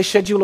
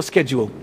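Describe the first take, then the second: First: Schedule said with an opening "sh" sound; soft SH pronunciation. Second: Schedule said with an opening "sk" sound; hard SK pronunciation. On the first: Preacher asks congregation how to say it, schedule with SH. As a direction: say schedule as "SHED-yool". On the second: Preacher offers congregation the other option, schedule with SK. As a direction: say schedule as "SKED-yool". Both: Shown as a demonstration. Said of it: "Do you say schedule or schedule?".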